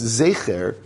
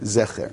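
First: The first vowel is a long 'ay' sound. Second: The first vowel is a short 'eh' sound. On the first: "what we would pronounce zecher" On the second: "somebody who was reading in Sfaradit would read that as if it said Zecher"

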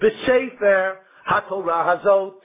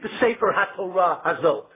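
First: There is a pause after the first word. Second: There is no pause after the first word. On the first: The last word describes the Torah. The speaker calls it right. "You should read it" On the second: The last word describes the book. The speaker calls it wrong. "don't read it"

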